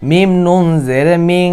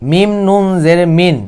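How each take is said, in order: First: "মিং" ending in a long nasal hum; ইকফা উচ্চারণ. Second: "মিন" ending in a clear short n; ভুল উচ্চারণ. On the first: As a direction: hold the hidden n of "মিং" in the nose. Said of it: "আমরা তখন বলবো". ("মিং" নাকে টেনে গুন্নাহ করে) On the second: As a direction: close "মিন" on a plain n, no hum. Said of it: "অবশ্যই ভুল". ("মিন" গুন্নাহ ছাড়া স্পষ্ট ন দিয়ে) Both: Shown as a demonstration.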